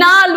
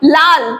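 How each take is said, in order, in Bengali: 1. শব্দটি 'n' ধ্বনি দিয়ে শুরু হয়। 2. শব্দটি 'l' ধ্বনি দিয়ে শুরু হয়।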